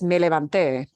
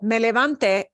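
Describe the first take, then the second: First: The stress is on the final syllable. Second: The stress is on the middle syllable.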